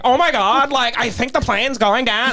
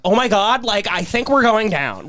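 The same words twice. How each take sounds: First: Valley Girl imitation. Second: A hint of a ditzy panicked pilot, a bit higher; Valley Girl pilot. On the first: Mocking the pilot to amuse the class, hammed-up Valley Girl. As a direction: ham up the Valley Girl crash line. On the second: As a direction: lightly mimic a Valley Girl in a crash. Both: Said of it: "Like Valley Girl".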